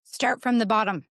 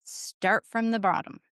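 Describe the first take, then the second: First: Said in the usual way. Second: Slow it down and press the point home; slower emphatic repeat. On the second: Shown as a demonstration. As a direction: drive it home gently and slowly. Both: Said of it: "I tried to emphasize".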